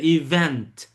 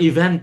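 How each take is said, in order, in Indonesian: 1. Konsonan terakhir dilepaskan dengan kuat dan jelas. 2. Konsonan terakhir lemah atau hilang. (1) "Ininya harus lebih strong" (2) "Jangan event, c, jangan kayak gitu"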